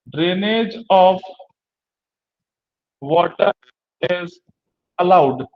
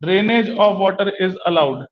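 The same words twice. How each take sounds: First: Each word slow and spaced for notes; slow dictation pace with long gaps. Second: Said in the usual way. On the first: Shown as a demonstration. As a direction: dictate it slowly, word by word for the class. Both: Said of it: "इस drain condition में कहेंगे कि".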